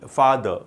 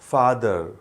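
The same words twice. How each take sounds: First: The final r sound is dropped. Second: The final r sound is pronounced. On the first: "British English में last के letter को ऐसे ही छोड़ देते हवा में" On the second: "in American English"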